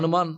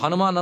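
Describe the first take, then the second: First: The name is said sleepily and slurred. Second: The name is said fully and clearly. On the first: The speaker calls it wrong. "హనుమాన్ అంటారు, వాళ్ళకి అనుమానమే అని" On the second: The speaker calls it right. "నిద్రపోయే వాళ్ళకి హనుమాన్ అనరు"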